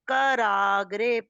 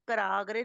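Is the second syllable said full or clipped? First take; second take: full; clipped. First: The second syllable is said fully and clearly. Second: The second syllable is clipped and shortened. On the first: The speaker calls it right. "पूरा पूरा शब्द है, आराम से बोलिए।" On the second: The speaker calls it wrong. "कराग्रे में का आधा कर दिया आपने।"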